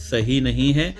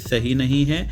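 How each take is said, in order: Both takes have the same delivery.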